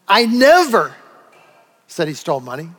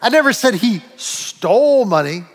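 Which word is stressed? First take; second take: never; stole. First: The stress is on "never". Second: The stress is on "stole".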